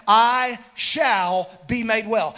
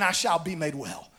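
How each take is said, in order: First: "I shall" stretched out slowly and firmly; emphatic declaration. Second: Low, softened declaration of faith; quiet assurance. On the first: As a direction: declare "I shall be made well", drawing out "I shall". Declares the woman's words of faith. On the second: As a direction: drop low and soft on the quoted words. Quiet retelling of her new words. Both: Retold or imitated.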